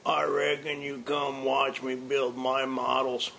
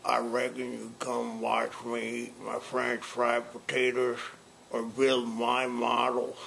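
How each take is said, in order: First: Without cigar. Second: Talking around a cigar; words mumbled past a cigar; cigar in mouth. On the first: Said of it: "All right, now without the cigar". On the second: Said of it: "Let's try it with a cigar first". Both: Shown as a demonstration.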